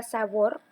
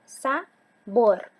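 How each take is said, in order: First: Said in the usual way. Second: "Sabor" split as sa... BOR, the BOR louder; teacher demonstrating a loud final BOR in "Sabor"; stress on last syllable. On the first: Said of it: "decimos la palabra sabor". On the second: Shown as a demonstration. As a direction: punch the second syllable of "Sabor" after a gap. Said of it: "¿cuál suena más intensamente?".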